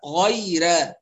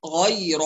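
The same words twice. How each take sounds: First: "غير" ending in a thin, fronted "ر" and vowel; light raa. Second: "غير" with a dark, backed "ر" and vowel; heavy raa. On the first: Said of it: "الأزرق يرققها". ("غير" بترقيق الراء) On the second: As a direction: thicken the "ر" of "غير". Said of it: "الراء فيها مفخمة". ("غير" بتفخيم الراء) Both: Shown as a demonstration.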